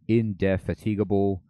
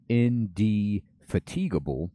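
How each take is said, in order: First: The middle sounds like the word 'fat'. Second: The middle sounds like the word 'fatigue'.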